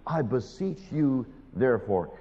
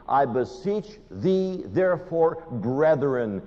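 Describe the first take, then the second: First: Earnest plea. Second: Personal plea. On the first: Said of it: "Listen to the plea". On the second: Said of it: "He's talking to me". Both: Retold or imitated.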